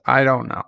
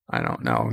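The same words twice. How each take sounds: First: Said in the usual way. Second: "I don't know" dropped very low and much softer; very deep drop. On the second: Shown as a demonstration. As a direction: sink "I don't know" into a low, quiet rumble.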